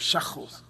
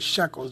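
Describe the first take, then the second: First: The word is said the Hebrew way. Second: The word is said the ordinary English way. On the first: "They go shekels" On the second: "They don't say shekels"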